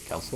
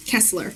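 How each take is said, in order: First: Kessler asked quietly, KESS-ler; unsure pronunciation. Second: Kessler said firmly, KESS-ler, falling; confirming pronunciation. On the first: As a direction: Kessler softly questioned, stress on KESS. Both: Real, not acted. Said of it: "I did pronounce it right".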